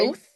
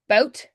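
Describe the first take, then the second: First: The word ends with a TH sound. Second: The word ends with a T sound.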